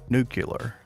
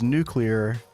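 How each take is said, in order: First: It is said as nu-cu-lar. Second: It is said as nu-clee-ar. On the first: The speaker calls it wrong. "not nuclear. Can't stand that shit" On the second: The speaker calls it right. "I will say it is nuclear"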